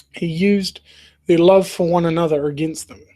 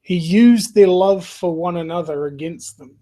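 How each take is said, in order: First: "He used" set apart with a pause, then the rest; stress on used. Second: Said in the usual way. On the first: Shown as a demonstration. A friend repeating a film line, leaning on "used". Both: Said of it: "I just think this line is almost prophetic".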